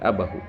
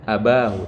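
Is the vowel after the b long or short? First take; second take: short; long. First: The vowel after the b is short. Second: The vowel after the b is long. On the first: The speaker calls it right. "tapi abahu. Ini contoh nakes" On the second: The speaker calls it wrong. "Bukan wa man yushabih abahu"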